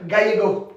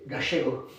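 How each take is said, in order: First: It is said with a standard Spanish accent. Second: It is said with an Argentine-style accent.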